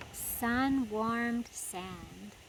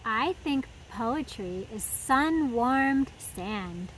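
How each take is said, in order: First: "Sun-warmed sand" drawn out very slowly, softer, rising; savoured repeat. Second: Slow, lightly voiced turtle; drawn-out, easygoing hint of a turtle. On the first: Shown as a demonstration. Host repeating the turtle's phrase for kids, very slow and savouring. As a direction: linger on every word of "Sun-warmed sand". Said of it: "repeats line savouring". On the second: Turtle answering Daniel, slow and unhurried.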